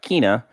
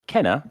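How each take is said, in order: First: The first vowel is a long 'ee' sound. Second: The first vowel is a short 'eh' sound. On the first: The speaker calls it wrong. "and not Kina" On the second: The speaker calls it right. "it's pronounced Kenna"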